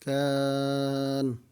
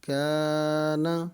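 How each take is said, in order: First: The word stops on the final 'n'. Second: The word ends with a short 'a' vowel. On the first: The reader stops on this word. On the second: The reading continues without stopping.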